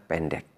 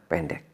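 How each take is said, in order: The two takes are said the same way.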